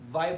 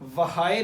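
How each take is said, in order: First: No h sound is heard after the w. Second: An h sound is heard after the w. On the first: The speaker calls it right. "वाई पढ़ते हैं" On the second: The speaker calls it wrong. "इसको हम वहाए नहीं पढ़ते"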